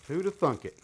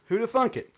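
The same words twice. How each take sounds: First: Deadpan echo of the quip; dry repeat. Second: High mock amazement on Who'da thunk it; over-the-top fake astonishment; sarcastic mock surprise. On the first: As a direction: mutter the joke back to yourself. Repeats the quip more quietly. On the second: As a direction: play it up like it's a shocking discovery. Tools were included after all. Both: Real, not acted.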